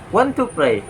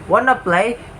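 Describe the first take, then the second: First: Each word is said fully and separately. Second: The words are blended into a reduced form.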